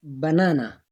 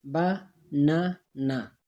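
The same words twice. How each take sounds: First: Said in the usual way. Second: Slow "बा ना ना", a pause after each syllable; split into syllables. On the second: Shown as a demonstration. Teacher showing two breaks in banana, "बा ना ना" syllable by syllable. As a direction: break it into three separate beats, "बा", "ना", "ना". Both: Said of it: "दो जगहों पे आवाज़ टूटता है".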